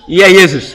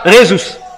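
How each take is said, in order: First: The name begins with a Y sound. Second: The name begins with an R sound. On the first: This is how it was said in Latin. "Les latins prononçaient toujours" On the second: This is how it is said in Spanish. "en espagnol, le nom J est prononcé R"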